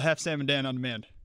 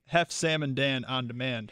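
First: It is said at normal speed. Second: It is said slowly.

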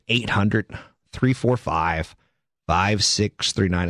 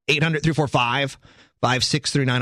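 First: The number is said slowly. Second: The number is said quickly.

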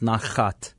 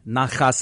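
First: The word ends with a t sound. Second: The word ends with an s sound. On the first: This is how others say it. "otherwise others would call it nachat" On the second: This is the Yiddish way of saying it. "But with a Yiddish pronunciation"

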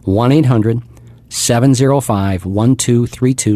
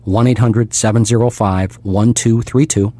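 First: The number is said at a slower pace. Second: The number is said at a faster pace.

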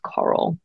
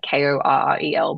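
First: It sounds like coral, stressed at the start. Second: It sounds like Carell, stressed at the end. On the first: This is how the name is really said. The speaker calls it right. "but it's pronounced Coral" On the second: This is how the spelling suggests it. The speaker calls it wrong. "It's spelt Korrel, like Korrel"

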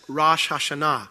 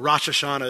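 First: The name has a Hebrew-style pronunciation. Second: The name has an American-style pronunciation.

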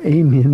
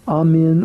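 First: The word is said the way Texans say it. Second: The word is said in a non-Texan way.

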